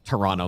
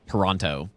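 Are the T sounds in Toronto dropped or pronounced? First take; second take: dropped; pronounced. First: The T sounds are left out of the word. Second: Every T sound in the word is pronounced. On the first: This is how most locals say it. "like zero, zero T" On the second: The speaker is not from Canada. "The way that it's actually written"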